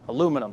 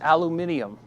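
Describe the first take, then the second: First: It is said the American way, with four syllables. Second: It is said the British way, with five syllables.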